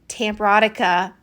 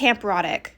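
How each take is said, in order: First: The name ends with an added uh vowel. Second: The name ends on a k consonant. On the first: The speaker calls it wrong. "I don't know why I kept adding an uh at the end" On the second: The speaker calls it right. "It's Tamperotic"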